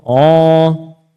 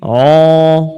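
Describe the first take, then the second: First: The vowel is a rounded 'o'. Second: The vowel is a rounded 'o'.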